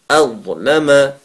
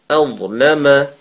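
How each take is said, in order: The two takes are said the same way.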